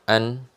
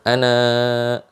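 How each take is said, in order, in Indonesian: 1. Kata ini diakhiri dengan konsonan n. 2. Kata ini diakhiri dengan vokal panjang. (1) "maka dia akan dibacanya an. Ya, tidak dibaca ana" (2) "kita sudah stop tadi ya"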